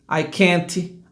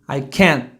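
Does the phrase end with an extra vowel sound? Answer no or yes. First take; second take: yes; no. First: An extra vowel sound follows the final t. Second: The phrase ends on an unreleased t. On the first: The speaker calls it wrong. "nós temos manias de colocar um I depois" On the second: The speaker calls it right. "Olha a pronúncia certa"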